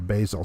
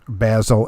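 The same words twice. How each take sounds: First: It is said the ordinary American way. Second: It is said the way British speakers say it.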